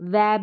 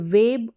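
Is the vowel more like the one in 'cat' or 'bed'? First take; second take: cat; bed. First: The vowel is open, like in 'cat'. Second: The vowel is mid, like in 'bed'. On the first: The speaker calls it wrong. "अब इसको वैब या मैन ऐसे करके नहीं बोलेंगे" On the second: The speaker calls it right. "ये वाला ए का उच्चारण रहेगा"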